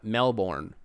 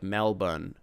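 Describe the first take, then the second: First: The name is said in an American accent. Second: The name is said in an Australian accent. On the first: The speaker calls it wrong. "That's not how you're supposed to say it" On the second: The speaker calls it right. "You're supposed to basically say it with an Australian accent"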